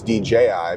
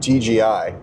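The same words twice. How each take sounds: First: The middle letter sounds like a clear J. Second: The middle letter sounds like a G. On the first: The speaker calls it right. "no, it's" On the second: The speaker calls it wrong. "It's not"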